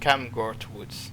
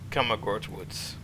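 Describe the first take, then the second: First: The name is said with two syllables. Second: The name is said with three syllables. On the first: The speaker calls it right. "my apologies. It's Camgort Woods" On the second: The speaker calls it wrong. "sorry, I mispronounced"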